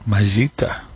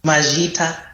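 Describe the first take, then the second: First: Majita copied with a slight rise at the end; learner echo. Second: A native speaker offering Majita for thank you; Shona word. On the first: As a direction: repeat Majita back, testing it. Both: Shown as a demonstration. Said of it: "how do you say thank you".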